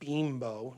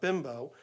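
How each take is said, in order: First: The first vowel is long, like 'bee'. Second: The first vowel is short, like 'bim'. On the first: The speaker calls it right. "it's called Beambo" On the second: The speaker calls it wrong. "not Bimbo"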